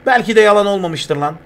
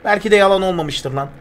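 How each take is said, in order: Both takes have the same delivery.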